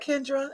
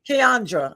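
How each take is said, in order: First: The name starts with a short 'Ken' sound. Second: The name starts with a longer 'Kee-an' sound. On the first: The speaker calls it wrong. "is that said right" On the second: The speaker calls it right. "I'm saying it wrong"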